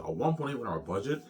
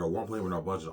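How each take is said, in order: First: Shocked echo. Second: Said in the usual way. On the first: Retold or imitated. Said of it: "he's shocked". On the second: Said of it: "I don't know, Peter".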